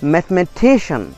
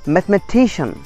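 No difference in how they are said.

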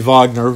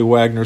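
First: The name is pronounced the German way. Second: The name is pronounced the American way. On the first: The person would be from Germany. "It would be Wagner, yeah. Like the composer" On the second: The person is from the United States. "probably Wagner since he's in the U.S"

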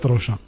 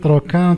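First: The 'ch' is said as a 'sh' sound. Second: The 'ch' is said as a 'k' sound. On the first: The speaker calls it right. "il a prononcé trochiter, trochin. Ce que je vois, il est plus correct" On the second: The speaker calls it wrong. "C'est ce qu'on a l'habitude de prononcer tout au long de ma vie"

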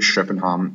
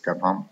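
First: The name is pronounced the Swedish way. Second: The name is pronounced the Danish way. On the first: "literally how it's pronounced in Swedish" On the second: "not in Danish, where it's"

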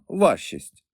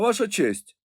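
First: The words are run together into one word. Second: Two words are said fully and separately.

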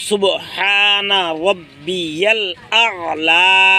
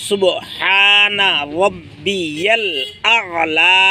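The two takes are said the same way.

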